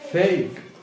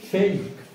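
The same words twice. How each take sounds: First: The word ends on the k sound. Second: The same.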